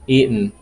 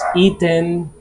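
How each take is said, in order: First: The middle T is silent. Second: The middle T is clearly pronounced. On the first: "North American accent, they say eaten, eaten. Like the T is mute" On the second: "Some people may pronounce eaten"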